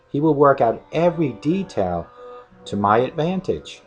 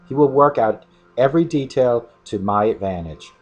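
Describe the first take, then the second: First: It is read more slowly and clearly. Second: It is read at a quicker pace.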